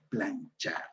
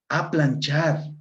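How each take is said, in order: First: The word begins directly with the 'p' sound. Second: The word begins with an added 'a' sound. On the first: The speaker calls it right. "la palabra correcta es planchar" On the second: The speaker calls it wrong. "es con palabra con prótesis"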